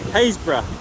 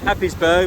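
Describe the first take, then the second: First: The name begins with 'Hays', as in haze. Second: The name begins with 'Happ', as in happy. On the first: The speaker calls it right. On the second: The speaker calls it wrong.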